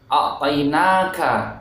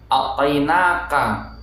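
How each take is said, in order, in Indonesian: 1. Bunyi k ada hembusan udara yang terdengar. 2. Bunyi k tidak ada hembusan udara yang terdengar. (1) "seperti itu ya" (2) "Itu tidak tepat"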